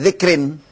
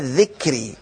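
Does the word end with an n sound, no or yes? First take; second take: yes; no. First: The word ends with an added n sound. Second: The word ends on a vowel, no n sound. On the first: The noun stands alone without a following possessor. The speaker calls it wrong. "bukan dibaca dzikrin" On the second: The noun is joined to the following word. The speaker calls it right. "Kenapa enggak ditanwinkan? Karena dia akan mudhaf"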